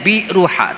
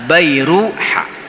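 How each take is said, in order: First: The first syllable is said as 'bi'. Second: The first syllable is said as 'bai'. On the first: The speaker calls it wrong. "ada yang mengeja dengan Biruha" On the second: The speaker calls it right. "tapi yang benar adalah Bairuha"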